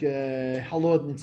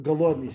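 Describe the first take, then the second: First: The word begins with a breathy h sound. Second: The word begins with a hard g sound. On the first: This is the Ukrainian way of saying it. "she also says like halodni" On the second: This is the standard Russian way of saying it. "instead of galodni"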